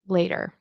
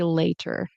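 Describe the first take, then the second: First: The middle consonant is a quick D-like flap. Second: The middle consonant is a crisp, clear T. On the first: It is the usual general American form. "this will turn into a flap T, which is a D sound" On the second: It sounds careful or British-influenced. "we generally don't say later. It's kind of more British influence"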